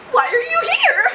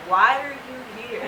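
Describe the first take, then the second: First: "Why are you here?" asked much higher and chirpy; a sunny doctor, the opposite of the bored nurse; mock-cheerful doctor; bubbly doctor. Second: A deadpan nurse asking "Why are you here?" without interest; mild mock of a bored nurse; flat nurse. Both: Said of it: "the antithesis of the nurse".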